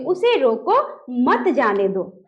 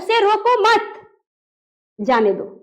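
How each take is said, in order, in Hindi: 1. 'roko' के बाद थोड़ा सा विराम है। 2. 'mat' के बाद थोड़ा सा विराम है।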